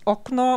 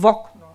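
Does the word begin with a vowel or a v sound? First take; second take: vowel; v sound. First: The word begins directly with a vowel. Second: The word begins with a v sound. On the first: This is the standard form. "das Fenster ist Okno" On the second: This is the colloquial form. "umgangssprachlich heißt es Vokno, also mit einem W vorne dran"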